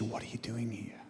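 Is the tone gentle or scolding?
gentle. The voice sounds soft and gentle. The speaker is asking out of concern. "I think God was really saying it more like this"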